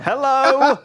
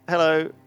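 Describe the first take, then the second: First: It is said louder and more slowly. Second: It is said at a normal, polite volume.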